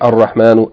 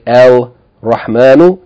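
First: The L merges into a doubled r sound. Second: The L of the article is clearly pronounced. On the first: The speaker calls it right. "You're going to say Ar Rahmanu" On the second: The speaker calls it wrong. "You're not going to say El Rahmanu"

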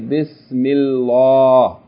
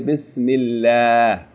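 First: The L sound is heavy and full. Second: The L sound is light and thin. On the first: The speaker calls it wrong. "You don't say Bismillah" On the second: The speaker calls it right. "You say Bismillah"

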